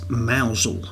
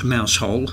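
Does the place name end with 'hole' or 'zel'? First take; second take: zel; hole. First: The name ends in a short 'zel' sound. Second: The name ends in a full 'hole' sound. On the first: The speaker calls it right. "the proper pronunciation is mousel" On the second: The speaker calls it wrong. "not mousehole, as you would expect"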